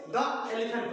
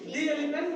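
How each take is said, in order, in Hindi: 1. 'The' को छोटे 'uh' स्वर के साथ बोला जाता है। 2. 'The' को लंबे 'ee' स्वर के साथ बोला जाता है। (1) "नॉट ए द एलिफेंट पढ़ेंगे" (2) "यहां पढ़ेंगे दी एलिफेंट"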